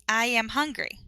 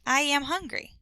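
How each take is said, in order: First: The words are run together smoothly. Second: The words are run together smoothly.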